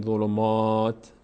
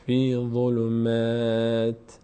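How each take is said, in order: First: "ظلمات" with dark, rounded "maa"; wrong heavy "m". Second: Slow "فی ظلمات" with light, fronted "maa"; thin "m". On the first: Teacher warns learners off this reading, heavy "maa". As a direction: say "ظلمات" wrongly, mouth full on the "m" vowel. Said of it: "نگین ظلمات". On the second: Teacher models correct pause reading, thin long "maa". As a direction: draw out "ظلمات" with a thin vowel after "m", stopping on "t". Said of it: "میم هیچ وقت پرخونده نمیشه". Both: Shown as a demonstration.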